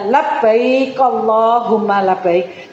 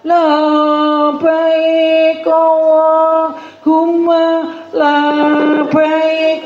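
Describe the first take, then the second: First: It is said crisply without drawn-out sounds. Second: It is said sleepily with sounds drawn out. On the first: The speaker calls it right. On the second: The speaker calls it wrong. "jangan dengan ngantuk-ngantuk ya, terus membacanya"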